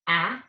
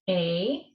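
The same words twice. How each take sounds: First: The vowel is said as its short sound. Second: The vowel is said as its long letter name. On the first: "the short vowel sounds are" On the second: "Our vowels are"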